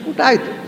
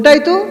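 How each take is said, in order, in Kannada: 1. ಇದನ್ನು ಕೊನೆಯಲ್ಲಿ ಇಳಿಸಿ, ಹೇಳಿಕೆಯ ಧಾಟಿಯಲ್ಲಿ ಹೇಳಲಾಗುತ್ತದೆ. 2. ಇದನ್ನು ಪ್ರಶ್ನಿಸುವ ಧಾಟಿಯಲ್ಲಿ ಹೇಳಲಾಗುತ್ತದೆ. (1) "ಫುಲ್ ಸ್ಟಾಪ್ ಅಂತ ಹೇಳೋದು ಬೇಡ" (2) "ಓ ಕೇಳಿದ ಕೂಡಲೇ ಗೊತ್ತಾಯಿತು ಪ್ರಶ್ನೆ ಅಂತ"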